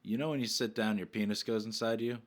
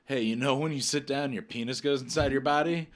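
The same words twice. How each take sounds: First: Deadpan question. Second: A bit brighter, eager question; excited question. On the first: Shown as a demonstration. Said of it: "look at 'em and say". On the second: Retold or imitated. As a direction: blurt it out eagerly. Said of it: "I look at Tyler and go".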